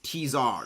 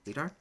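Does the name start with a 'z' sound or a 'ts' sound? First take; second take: ts; z. First: The name starts with a 'ts' sound. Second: The name starts with a 'z' sound. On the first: The speaker calls it right. "no, no, it's it's T-Zar" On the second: The speaker calls it wrong. "I always just called it Z-Tar"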